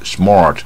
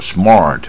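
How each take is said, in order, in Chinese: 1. r 要卷得很明显。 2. r 要卷得很明显。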